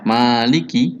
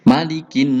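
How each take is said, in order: First: The vowels in the word are drawn out long. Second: The vowels in the word are all kept short. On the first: The speaker calls it wrong. "Jangan sampai maliki" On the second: The speaker calls it right. "dibaca pendek semua ini"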